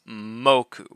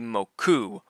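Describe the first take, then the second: First: The stress is on the first syllable. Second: The stress is on the second syllable. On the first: The speaker calls it right. "always moku" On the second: The speaker calls it wrong. "will never be moku"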